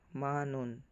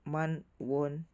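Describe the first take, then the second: First: No w sound begins the last syllable. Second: A w sound begins the last syllable.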